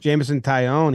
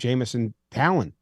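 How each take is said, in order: First: The surname sounds like 'tie-yon'. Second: The surname sounds like 'talon'.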